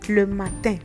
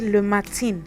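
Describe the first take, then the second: First: The ending uses the French 'in' sound. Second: The ending uses an English-like 'in' sound. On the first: The speaker calls it right. "but you say le matin" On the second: The speaker calls it wrong. "So you don't say le matin"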